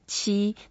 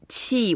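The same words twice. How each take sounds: First: The pitch stays high and level throughout. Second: The pitch falls sharply from high to low. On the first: It means the number seven. "if we say the first tone" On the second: It means air. "we have to go down, it's the fourth tone"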